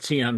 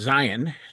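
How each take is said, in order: First: It is said with a non-English pronunciation. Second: It is said with an English pronunciation. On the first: It refers to the religious concept of Zion. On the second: It refers to Zionism and the modern state.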